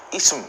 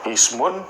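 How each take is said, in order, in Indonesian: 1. Kata ini tanpa akhiran vokal di akhir. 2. Kata ini berakhiran '-un'. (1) "Jadi harokat terakhirnya nggak dibaca" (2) "dalam percakapan kita kita nggak sebut ismun gitu"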